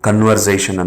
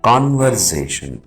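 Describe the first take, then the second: First: The first syllable has a short, weak vowel. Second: The first syllable has a long, open vowel. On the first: The speaker calls it wrong. "ಕನ್ವರ್ಸೇಷನ್ ಅಂತ ಹೇಳಬಾರ್ದು" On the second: The speaker calls it right. "It is ಕಾನ್ವರ್ಸೇಷನ್"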